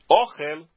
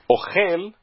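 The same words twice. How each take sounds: First: The stress is on the first syllable. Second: The stress is on the last syllable. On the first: It means food. "ohel é paroxítona" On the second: It means he is eating. "Ohel é oxítona"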